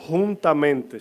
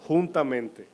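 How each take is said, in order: First: "Juntamente" said louder, each syllable weighted; stress on juntamente. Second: Said in the usual way. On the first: Shown as a demonstration. Preacher stressing the key word to his church, emphatic. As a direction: land hard on "Juntamente" for the congregation. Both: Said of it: "por qué enfatizo en la palabra juntamente".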